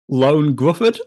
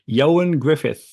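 First: The first name sounds like 'Lone'. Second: The first name sounds like 'Yo-an'. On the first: The speaker calls it wrong. "I think I'd been saying Lone Gruffudd" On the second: The speaker calls it right. "that is the correct pronunciation"

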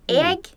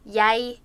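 First: The word sounds like 'egg', with no y-glide. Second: The word starts with a y-glide, like 'yay'. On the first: This is one dialect's form of the word. "Thomas would say egg" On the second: This is a second dialect's form of the word. "Jesper would say jeg"

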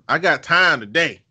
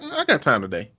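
First: It is said in a threatening, confrontational tone. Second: It is said in a plain, friendly tone.

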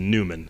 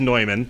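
First: The name is said the American way. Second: The name is said the German way. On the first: This is the locally adapted form. "just Americanized it to Neumann" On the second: This is the form from the name's origin. "The proper pronunciation is Neumann"

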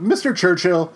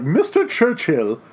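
First: It is said in the speaker's plain accent. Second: It is said in an upper-class British accent.

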